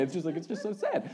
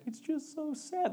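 First: Said in the usual way. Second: High, slow, weepy imitation of his wife; mock tearful wife. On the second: Pastor imitates his wife crying over This Is Us, high and weepy. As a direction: pitch it way up and stretch it like a sniffling wife. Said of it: "She's like".

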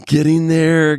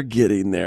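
First: High teasing echo of getting there; teasing quote, pitched way up; mock echo. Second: Said in the usual way. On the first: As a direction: lift there up high, playfully. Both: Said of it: "I'm getting there".

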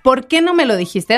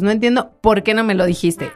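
First: "¿Por qué no me lo dijiste?" asked outright, with questioning tune; direct question. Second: "no entiendo por qué no me lo dijiste" as a statement, falling at the end; indirect question. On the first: Showing co-hosts how it could be asked, direct questioning tune. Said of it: "Así lo podríamos preguntar". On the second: Showing co-hosts an indirect question, falling statement tune. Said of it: "Esta es una pregunta indirecta". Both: Shown as a demonstration.

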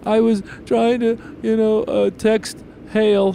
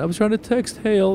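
First: Put-on high, slow little-boy voice; little kid voice. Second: Put-on high little-boy voice, repeated; little kid voice. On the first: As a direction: imitate a four-year-old explaining himself, much higher. Dad voices his four-year-old son. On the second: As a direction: quote the four-year-old again, much higher. Dad repeats son's words.

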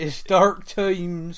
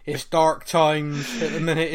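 First: Put-on slow, drawn-out West Country accent. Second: Said in the usual way. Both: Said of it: "in his best West Country accent".

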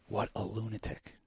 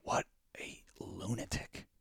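First: Said in the usual way. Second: Whispered What a lunatic; hushed disbelief. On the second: Shown as a demonstration. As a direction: breathe What a lunatic unvoiced.

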